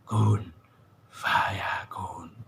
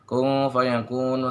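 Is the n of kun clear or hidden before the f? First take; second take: clear; hidden. First: The n before f is pronounced clearly. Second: The n before f is hidden and nasalized. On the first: The speaker calls it wrong. "jangan dibaca kun fayakun" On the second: The speaker calls it right. "Non mati ketemu fa dibaca ikhfa"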